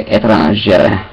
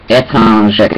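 The two takes are said the same way.

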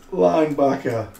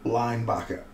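First: Linebacker said louder and higher with a falling punch; emphatic repeat. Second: Said in the usual way. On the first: Real, not acted. Repeats word with relish.

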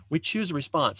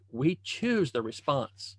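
First: Said in the usual way. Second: Slow and softer, each word weighed; drawn-out, softer "We choose the response."; slow emphasis. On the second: Shown as a demonstration. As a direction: spell out "We choose the response." slowly and softly, word by word.

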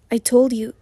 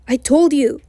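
First: Said in the usual way. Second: Raised, insistent near-shout. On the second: A narrator's reading. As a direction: shout it back in frustration. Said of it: "he shouts".

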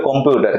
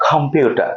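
First: Said in the usual way. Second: "কম্পিউটার" with a puffed k and no final r; silent final R. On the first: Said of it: "অনেকে বলে কম্পিউটার". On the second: Shown as a demonstration. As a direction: end "কম্পিউটার" on an open ah. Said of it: "perfect উচ্চারণ হবে".

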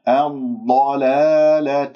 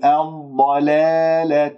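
First: الضلالة with pure long aa after lam; heavy dad, untilted vowel in الضلالة; correct open alif. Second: الضلالة with long aa bent toward e; faulty fronted vowel in الضلالة; tilted alif, wrong. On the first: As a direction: recite الضلالة slowly, alif open and level. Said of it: "لا تقل الضلالة". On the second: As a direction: say الضلالة slowly as "dalehleh". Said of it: "هذه إمالات بالألف". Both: Shown as a demonstration.

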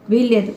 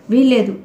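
First: Said in the usual way. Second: Sharp shouted refusal, వీల్లేదు hit hard and loud; a narrated wife's loud వీల్లేదు. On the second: A narrator's reading. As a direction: fling out వీల్లేదు as a cry. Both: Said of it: "గట్టిగా అరిచింది".

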